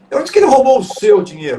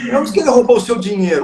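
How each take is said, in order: First: The stress falls on the word seu. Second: The stress falls on the word dinheiro. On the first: The money belonged to someone else. "se não foi o seu, foi de quem?" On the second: Something other than money was stolen. "se não foi o seu dinheiro, foi o quê que ele roubou?"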